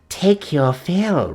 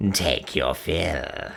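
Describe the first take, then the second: First: Slow sinister croak, word take drawn out; slow gloating croak; croaking witch. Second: Evil cackle then very slow low croak; gloating witch cackling over the treasure. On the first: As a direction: croak it slowly like a gloating hag. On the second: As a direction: laugh wickedly, then drag the words. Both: A narrator's reading. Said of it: "croaked Gagul".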